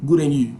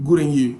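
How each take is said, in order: The two takes are said the same way.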